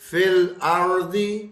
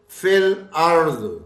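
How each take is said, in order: First: The phrase ends with a short i vowel. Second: The phrase ends on the consonant d.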